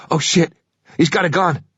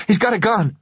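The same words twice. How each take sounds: First: Higher, alarmed shout of panic; sudden frightened yell; panicked cry. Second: Much higher, frantic repeat; shrill desperate second cry; panicked shriek. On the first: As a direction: voice jumps up in fear. Passenger panics at gun. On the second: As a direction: voice cracks up high in terror. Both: Acted.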